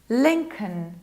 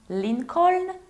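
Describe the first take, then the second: First: The ending is reduced to a weak syllable. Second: The ending is said as a full syllable. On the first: The speaker calls it right. "We reduce this ending" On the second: The speaker calls it wrong. "Perhaps Lincoln"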